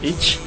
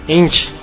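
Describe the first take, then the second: First: The word is said without the n sound. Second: The word is said with the n sound. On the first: The speaker calls it wrong. "Lo dijiste mal" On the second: The speaker calls it right.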